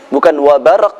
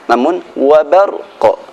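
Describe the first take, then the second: First: The final q stops flat without an echo. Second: The final q ends with a bouncing echo. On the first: The speaker calls it wrong. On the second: The speaker calls it right.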